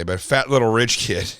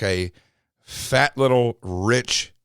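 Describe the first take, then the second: First: Said in the usual way. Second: Slow and halting, holding back a word; slow hesitant. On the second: Real, not acted. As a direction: drag it out while searching for a safer word. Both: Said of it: "I don't wanna say the word I was about to say".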